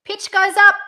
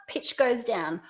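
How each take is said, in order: First: Loud high lift on "up"; pitch going up. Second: Pitch going down. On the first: Coach repeats the first option's tune, pitch up. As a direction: raise the whole phrase, "up" highest. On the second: Coach repeats the second option's tune, pitch down. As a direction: let "down" fall away to a close. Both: Shown as a demonstration.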